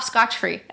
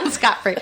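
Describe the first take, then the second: First: The first word ends with a 'ch' sound. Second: The first word ends with a 't' sound. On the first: The speaker calls it wrong. "I've been saying that wrong for years" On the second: The speaker calls it right.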